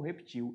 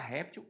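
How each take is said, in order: First: The stress is on the last syllable. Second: The stress is on the first syllable. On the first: "sem acento" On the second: "réptil com acento"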